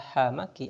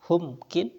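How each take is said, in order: First: Both syllables have the vowel a. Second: The vowel u, then no vowel before k. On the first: "dengan dua fathah" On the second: "atau dengan dhamma lalu sukun"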